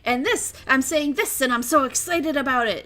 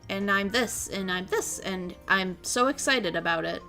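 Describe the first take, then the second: First: It is said with excitement. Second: It is said flatly, without excitement.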